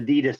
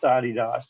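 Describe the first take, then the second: First: It is said the American way. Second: It is said the non-American, original way.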